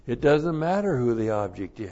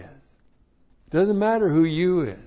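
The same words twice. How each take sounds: First: Said in the usual way. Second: Much higher and louder, punching matter; preaching shout. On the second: Real, not acted. Preacher driving the point home to the congregation, shouting. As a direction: hammer it home, full-force preacher.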